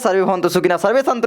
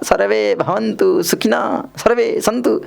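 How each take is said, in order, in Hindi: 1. यह तेज़ी से और जोश के साथ पढ़ा जाता है। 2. यह धीरे और बिना जोश के पढ़ा जाता है। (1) "आप बहुत जल्दी जल्दी बोलते हैं" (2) "ऐसे बोलूँगा भैया"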